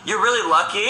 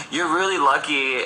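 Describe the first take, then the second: First: Flirty compliment. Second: Said in the usual way. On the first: Retold or imitated. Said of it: "He's like". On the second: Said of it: "He said".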